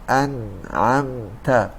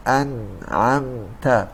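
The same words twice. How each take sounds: First: It is said with the nose pinched shut. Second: It is said with the nose pinched shut.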